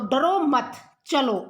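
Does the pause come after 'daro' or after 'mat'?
after mat. There is a pause right after the second word. The listener is told not to fear but to go. "अगर हम यहां पर लगा देते हैं"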